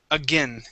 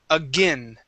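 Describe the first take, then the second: The two takes are said the same way.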